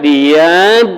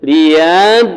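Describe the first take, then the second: First: The doubled consonant is dragged out before entering. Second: The same.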